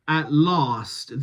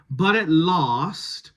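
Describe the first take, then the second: First: "last" with a long open broad A; bath vowel on last. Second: Said in the usual way. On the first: Shown as a demonstration. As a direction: give "last" the broad British A. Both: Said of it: "that's Bath set".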